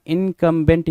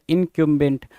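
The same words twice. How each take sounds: First: First इनकम्बेंट as "in-kum-bent"; plain "kum" in the middle of इनकम्बेंट; "kum" variant. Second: Second इनकम्बेंट as "in-kyum-bent"; y-glide after the k in इनकम्बेंट; "kyum" variant. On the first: Teacher offering two readings, इनकम्बेंट first as "in-kum-bent". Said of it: "कुछ लोग इनकम्बेंट पढ़ेंगे". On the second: Teacher offering two readings, इनकम्बेंट then as "in-kyum-bent". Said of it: "कुछ लोग इसको इनकम्बेंट पढ़ सकते हैं". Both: Shown as a demonstration.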